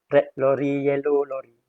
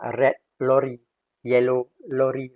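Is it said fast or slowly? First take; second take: fast; slowly. First: It is said at a fast pace. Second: It is said at a slow pace.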